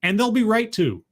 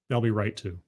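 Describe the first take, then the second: First: Said in the usual way. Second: Softer, lower, muttered echo; a dropped-voice afterthought; quiet aside. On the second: Acted. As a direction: mutter it again to yourself. Punchline then repeated aside.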